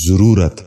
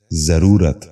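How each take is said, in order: First: ضرورت starting with "zu", "zu-roo-rat"; wrong pronunciation. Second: ضرورت starting with "za", "za-roo-rat"; correct pronunciation. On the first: Teacher showing viewers the mistake, wrong pronunciation. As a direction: say ضرورت as zuroorat. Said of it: "یہ غلط تلفظ ہے". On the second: Teacher giving viewers the model, correct pronunciation. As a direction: say ضرورت as zaroorat. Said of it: "درست تلفظ ہے". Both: Shown as a demonstration.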